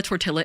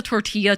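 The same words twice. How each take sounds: First: "tortilla" with the L sounded; mispronounced with hard L. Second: "tortilla" with a silent double L; proper Spanish pronunciation. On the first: Streamer recalling a slip that upset chat, "tortilla" as tor-TILL-a. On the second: Streamer recalling a pronunciation slip, proper Spanish "tortilla" as tor-TEE-ya. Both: Retold or imitated. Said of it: "I said tortilla on stream".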